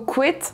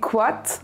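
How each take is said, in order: First: The vowel sounds like 'e'. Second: The vowel sounds like 'a'. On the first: This is the Vannetais pronunciation. "En Vantais, on prononcera plutôt" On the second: This is the Groix pronunciation. "À Groix, on pourra le prononcer"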